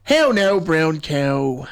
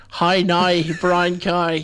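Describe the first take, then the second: First: Irish accent with narrowed vowels in "now" and "cow". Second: Northern Irish accent turning "now" and "cow" into "nigh" and "kye". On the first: Host showing co-host how Irish sounds, demonstrative Irish accent. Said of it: "'Cause if you're saying Irish". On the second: Host showing co-host the difference, Northern Irish accent like Derry Girls. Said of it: "if you say Northern Irish". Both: Shown as a demonstration.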